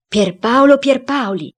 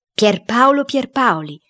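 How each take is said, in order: First: Loud, high, drawn-out call to a spirit; exclaimed summons. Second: Slow, high-pitched call to a spirit; summoning cook. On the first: Cook summoning the founder's spirit, exclaiming. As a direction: call the dead man's name out slowly. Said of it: "Il cuoco esclamò". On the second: Cook checking the spirit is there, calling slowly. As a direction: call the name out slowly, less forcefully. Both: A narrator's reading.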